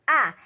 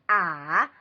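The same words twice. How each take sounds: First: The pitch falls sharply from high. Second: The pitch dips low, then rises.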